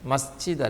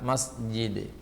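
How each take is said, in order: First: The j sound is breathy, like ch. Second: The j sound is fully voiced, without breath. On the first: The speaker calls it wrong. "ജീമ് ചീമാകുന്നു എന്നുള്ളതാണ് പ്രശ്നം" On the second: The speaker calls it right. "ഹംസ് എന്ന വിശേഷണം ജീമിനില്ല"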